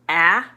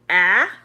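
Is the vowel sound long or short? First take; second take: short; short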